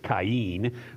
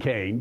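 First: The name is given a Hebrew-style pronunciation. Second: The name is given the usual English pronunciation. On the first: "how probably you would pronounce it if you were Hebrew" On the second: "rather than Cain"

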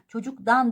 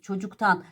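First: The suffix begins with a soft d sound. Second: The suffix begins with a hard t sound. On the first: The speaker calls it wrong. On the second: The speaker calls it right.

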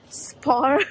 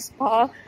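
First: The word ends with an R sound. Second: The word ends without an R sound. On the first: A shop with a similar name. "she meant like spa. I just need to pronounce the R's" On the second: A place for massages and treatments. "Anna and I were just looking for a spa"

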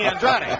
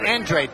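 First: The name is said in the Portuguese way. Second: The name is said in the anglicized way. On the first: This is how a Portuguese family would say it. "if they were Portuguese, it would be Andrade" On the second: This is how the family says the name. "It's Andrade. The family prefers Andrade"

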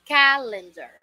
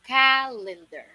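The two takes are said the same way.

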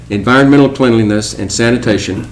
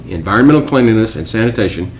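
Both takes have the same delivery.

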